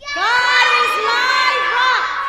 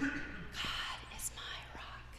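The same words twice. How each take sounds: First: It is said in a shout. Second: It is said in a whisper.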